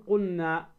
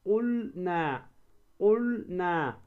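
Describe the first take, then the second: First: "قلنا" said qunna, the L merged into the N; wrong, lost lam. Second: Very slow "قلنا", qul-na with a held L; lam pronounced clearly. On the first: Tajwid teacher showing the mistake, "قلنا" as qunna. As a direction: swallow the L in "قلنا". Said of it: "ما تقول قلنا". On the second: Tajwid teacher showing the correct way, drawn-out qul-na for "قلنا". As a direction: hold the L, then release na in "قلنا". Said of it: "هكذا". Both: Shown as a demonstration.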